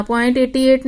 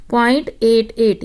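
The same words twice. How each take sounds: First: point एटी एट read as the whole number eighty-eight, the wrong way; teacher demonstrating the wrong reading point एटी एट. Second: point एट एट, each एट said as a separate digit; teacher modelling the correct reading point एट एट, slightly slow; digits read singly. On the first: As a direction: say एटी एट as one number to show the mistake. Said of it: "नहीं बोलते". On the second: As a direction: split it into एट एट, digit by digit. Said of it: "बोलते हैं". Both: Shown as a demonstration.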